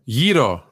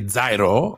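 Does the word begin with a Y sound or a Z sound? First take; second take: Y sound; Z sound. First: The word begins with a Y sound. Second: The word begins with a Z sound. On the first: The speaker calls it right. "It is pronounced Yiro" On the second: The speaker calls it wrong. "you people who say Zairo don't know the Greek"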